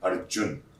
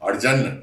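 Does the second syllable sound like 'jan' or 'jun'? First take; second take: jun; jan. First: The second syllable is said as jun. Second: The second syllable is said as jan. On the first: The speaker calls it right. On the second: The speaker calls it wrong. "अर्जन नहीं"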